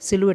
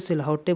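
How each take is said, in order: First: It is said as sil-oo-et, with silent letters. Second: It is said as sil-hou-tay, sounding every letter. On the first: The speaker calls it right. "सिलुएट बोलेंगे" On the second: The speaker calls it wrong. "बहुत से लोग इसे सिलहौटे बोलेंगे, ऐसा गलत है"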